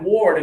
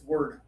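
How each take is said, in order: First: The vowel sounds like the one in 'ward'. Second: The vowel sounds like the one in 'bird'. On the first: The speaker calls it wrong. "it's not actually even ward" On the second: The speaker calls it right. "it's word, word, like rhymes with bird"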